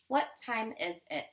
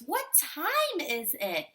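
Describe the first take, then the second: First: It is read flat and monotone, like a robot. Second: It is read with a lively questioning tune. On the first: The speaker calls it wrong. "That's not a question voice. That's a robot voice" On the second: The speaker calls it right. "We want to use a question voice"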